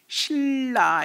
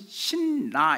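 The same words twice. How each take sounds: First: The first syllable ends with an l sound. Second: The first syllable ends with an n sound. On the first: The speaker calls it right. "신라 이렇게 읽어야 맞는다는 거예요" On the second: The speaker calls it wrong. "신라 이렇게 읽으면 틀린 거고"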